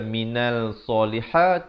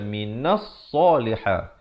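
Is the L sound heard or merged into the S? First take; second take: heard; merged. First: The L sound is clearly pronounced before the S. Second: The L sound merges into a doubled S. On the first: The speaker calls it wrong. "Jangan baca" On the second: The speaker calls it right. "tetapi baca"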